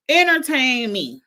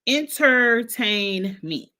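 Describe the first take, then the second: First: Louder, higher 'Entertain me' in one run; emphatic demand. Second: 'Entertain me' very slowly, syllable by syllable; drawn-out demand. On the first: Repeats demand, then stretches it out. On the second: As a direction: stretch out each syllable of 'Entertain me' for emphasis. Same demand repeated, syllable by syllable. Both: Real, not acted.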